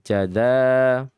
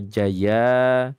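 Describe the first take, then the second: First: The middle consonant is a d sound. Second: The middle consonant is a y sound. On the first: "apa jada" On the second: "bukan jaza. Jaza atau jaya"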